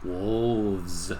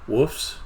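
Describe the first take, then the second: First: It has a clear L and ends with V. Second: It has no L and ends with an F. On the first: The speaker calls it right. "he'd get me on the F, and he'd get me on the L" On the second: The speaker calls it wrong. "I said it wrong"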